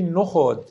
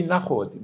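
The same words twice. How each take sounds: First: "نخود" said as nokhod, first vowel o; "نخود" with a rounded o after n; common pronunciation nokhod. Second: "نخود" said as nakhod, first vowel a; "نخود" with an open a after n, old style; Rumi's pronunciation nakhod. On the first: («نخود» با ضمه، نُخود) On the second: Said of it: "اونجوری که مولانا این بیتو خونده". («نخود» با فتحه، نَخود) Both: Shown as a demonstration.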